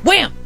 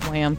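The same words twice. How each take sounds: First: It is said loudly and excitedly. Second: It is said flatly and calmly.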